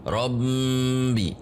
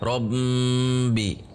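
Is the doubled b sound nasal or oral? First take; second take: nasal; nasal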